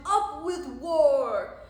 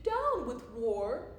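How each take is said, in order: First: Very loud, drawn-out war cry; rowdy slow rallying shout; shouted slogan. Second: Slow, mildly hooted slogan; drawn-out chant with a slight hoot; hooted protest. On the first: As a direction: bellow it as a battle chant. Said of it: "And they shouted". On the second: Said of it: "and he hooted". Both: A narrator's reading.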